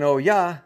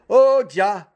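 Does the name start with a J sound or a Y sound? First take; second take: Y sound; J sound. First: The name starts with a Y sound. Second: The name starts with a J sound. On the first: "instead of saying" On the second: "with the Jah sound of the J"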